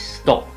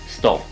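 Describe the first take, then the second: First: The final p sound is clearly released. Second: The final p sound is left out. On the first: The speaker calls it right. "what I actually need is is stop. So I need that p" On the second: The speaker calls it wrong. "either the sound is not there"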